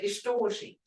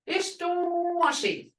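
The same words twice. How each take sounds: First: The word has a plain, ordinary tone. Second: The word has a marked, emphatic tone. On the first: It means just a little bit. "I can say just a little bit" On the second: It means a pinch, a very little amount. "But I can say a pinch, very little"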